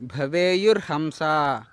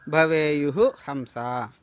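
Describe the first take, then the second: First: The two words run together without a break. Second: There is a break between the two words.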